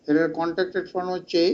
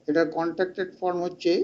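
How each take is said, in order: Both takes have the same delivery.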